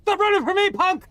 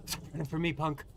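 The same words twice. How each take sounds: First: Raised, higher yelling taunt. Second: Softer muttered repeat; quiet taunt. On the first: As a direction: shout it at a fleeing player. Chasing opponent, yelling taunt. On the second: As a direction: say it low to yourself. Repeats taunt under breath. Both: Acted.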